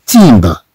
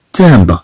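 First: تيمبر with I in place of the A sound; mistaken pronunciation. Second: تامبر with A, not I, in the first syllable; correct French pronunciation. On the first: Teacher shows how we do not read it, mistaken EE vowel. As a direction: say تيمبر with an EE in the first syllable. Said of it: "ولا نقرأها". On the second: Teacher shows how we read the word, correct French vowel. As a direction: say تامبر with an open nasal French A. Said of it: "نقرأها". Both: Shown as a demonstration.

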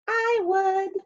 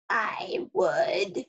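First: Lightly voiced tiny star, higher; a little sea star pipes up eagerly; small sea star voice. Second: A crusty coral, creaking the words out; creaky coral voice. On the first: The little sea star answers the hermit crab, high and small. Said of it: "signaled a little sea star". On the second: The crusty coral answers the hermit crab, creaking. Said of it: "creaked a crusty coral". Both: A narrator's reading.

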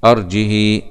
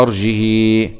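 First: أرجه without hamza, short final "hi"; kasra with qasr. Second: أرجه without hamza, drawn-out final "hii"; kasra with sila. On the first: Teacher showing the fifth reading, أرجه with short "hi". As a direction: end أرجه on an unlengthened kasra. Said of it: "بدون همز وبالكسر للهاء مع القصر". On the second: Teacher applying the sixth reading, أرجه with long "hii". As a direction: lengthen the kasra of أرجه into a yaa. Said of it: "بنزيد الصلة". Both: Shown as a demonstration.

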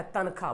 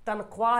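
First: तनख्वाह as "tan-khaa", w silent; usual spoken form. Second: तनख्वाह as "tan-khwaa", w sounded; spelling pronunciation. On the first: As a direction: drop the w from तनख्वाह. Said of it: "अब पढ़ते क्या?". (तनख्वाह को "तनखा" बोलें) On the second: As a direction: voice the written w in तनख्वाह. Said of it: "तनख्वाह लिखा हुआ". (तनख्वाह में वाव बोलकर) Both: Shown as a demonstration.

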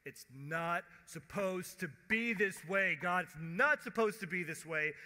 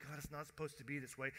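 First: Loud, insistent protest; raised-voice lament at God; crying out to God. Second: Quick, understated protest; brisk, mild lament; recalled complaint to God. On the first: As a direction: protest forcefully, leaning on each word. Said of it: "we're going". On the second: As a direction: toss the complaint off fast. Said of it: "where you're going". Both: Acted.

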